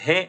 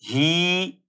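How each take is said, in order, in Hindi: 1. स्वर e जैसा सुनाई देता है। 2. स्वर लंबा खिंचा हुआ है। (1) "और हे ऐसे भी नहीं पढ़ेंगे" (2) "लेकिन इसको खींचेंगे नहीं। ही ऐसे भी नहीं पढ़ेंगे"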